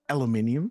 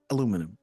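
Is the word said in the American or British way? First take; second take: British; American. First: The word is said the British way. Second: The word is said the American way. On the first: "the English say aluminium" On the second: "the Americans say aluminum"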